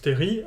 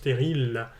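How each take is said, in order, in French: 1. Le mot se termine sans son L. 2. Le mot se termine par un son L audible. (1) "chez nous, se prononce terri" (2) "en francilien, ça se prononce terril, avec un L"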